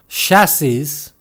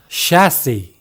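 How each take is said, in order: First: The final S sound is pronounced. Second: The final S sound is silent. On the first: The speaker calls it wrong. "chassis 또는 cassis가 아니라" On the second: The speaker calls it right. "끝에 S를 발음하지 않는다는 사실이 중요하죠"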